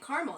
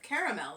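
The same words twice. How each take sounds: First: Caramel is said with an American pronunciation. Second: Caramel is said with a British pronunciation. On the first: This is the speaker's own habitual way. "I'm saying caramel" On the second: This is how the audience says it. "like you do"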